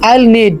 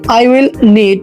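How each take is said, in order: First: It is said as one contracted syllable, I'll. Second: It is said as two full words, I will.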